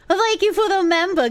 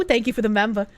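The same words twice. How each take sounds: First: High, put-on thank-you; hammed-up high-pitched gratitude; mock gushing thanks. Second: Said in the usual way. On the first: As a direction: repeat it in a higher, playful voice.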